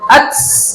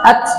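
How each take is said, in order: First: The t ends with a flowing, hissing breath. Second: The t stops cleanly without breath flowing. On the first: The speaker calls it wrong. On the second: The speaker calls it right.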